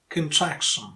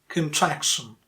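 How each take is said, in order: The two takes are said the same way.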